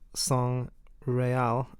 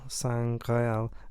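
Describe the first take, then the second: First: The g sound ends the first word. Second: The g sound starts the second word. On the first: It means royal blood. "if you move the G over, S A N G and then R E A L" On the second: It means the Holy Grail. "S A N G R E A L"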